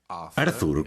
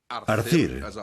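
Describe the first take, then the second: First: The name is pronounced the English way. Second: The name is pronounced the Welsh way. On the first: "como se dice en inglés" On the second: "como le llamamos en galés"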